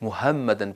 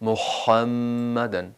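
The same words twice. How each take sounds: First: The h sound is light and plain. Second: The h sound is drawn out and stressed. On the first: The speaker calls it wrong. "मुहम्मदन पढ़ेंगे तो दुरुस्त नहीं होगा" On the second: The speaker calls it right. "बल्कि पढ़ें मुहम्मदन"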